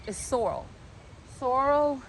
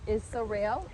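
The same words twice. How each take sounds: First: Sorrel said SOR-ol, stress at the start; corrected sorrel. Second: Sorrel said with a long e, like suh-REL; first try at sorrel. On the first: Correcting herself to viewers, sorrel as SOR-ol. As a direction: fixes the word sorrel to SOR-ol, stress up front. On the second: Showing the garden, she first says sorrel as suh-REL. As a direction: tries the word sorrel as suh-REL, stressed at the end. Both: Shown as a demonstration. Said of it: "or I'm saying it wrong".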